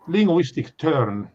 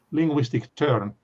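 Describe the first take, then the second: No difference in how they are said.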